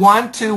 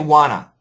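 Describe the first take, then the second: First: Both words are said fully and separately. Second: The two words blend into one reduced word. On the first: "you said want to, which is fine" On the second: "but we can also say wanna"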